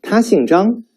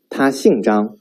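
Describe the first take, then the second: First: 他姓张 asked with 张 rising high; rising question tune. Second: Statement fall; falling statement tune. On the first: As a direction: lift 张 like a question. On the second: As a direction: drop 张 flatly. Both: Shown as a demonstration. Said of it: "Now read after me".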